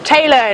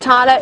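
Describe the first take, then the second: First: The first vowel sounds like 'ay'. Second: The first vowel sounds like 'eye'. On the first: The speaker calls it right. "it's Taylor, in fact" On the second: The speaker calls it wrong. "But it's not Tyler"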